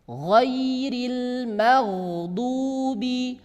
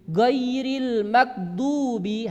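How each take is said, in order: First: The consonant is a soft throaty gh sound. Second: The consonant is a plain g stop sound. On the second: "dengan suara G"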